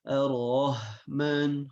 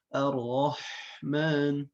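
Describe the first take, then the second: First: The h sound is light and breathy. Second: The h sound is raspy from the throat. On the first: The speaker calls it wrong. "Tertukarlah antara ha dengan ha" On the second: The speaker calls it right. "harusnya Ar-Rahman"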